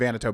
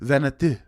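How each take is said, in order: First: The name is said with American English sounds. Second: The name is said with French-like sounds. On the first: "the American pronunciation is going to be" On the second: "but really"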